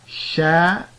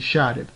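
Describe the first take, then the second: First: The word ends with a final 'un' sound. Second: The word ends on 'b' with no vowel. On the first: "we're going to put dhammatan on the lamul fi'l, and so that's going to give us" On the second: "We're going to drop that tanween at the end"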